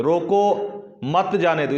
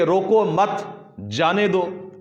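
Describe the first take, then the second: First: Slow "روکو", stop, then "مت جانے دو" as one group; pause after روکو. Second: "روکو مت" joined, a stop, then "جانے دو", pitched higher; pause after مت. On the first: Teacher shows the negative meaning, pausing after "روکو". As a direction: hold a silence between "روکو" and "مت جانے دو". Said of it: "روکو کے بعد وقف کر لیا". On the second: Teacher shows the meaning changing, pausing after "مت". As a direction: run "روکو" into "مت", halt, then release "جانے دو". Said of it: "مت پر وقف کریں گے". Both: Shown as a demonstration.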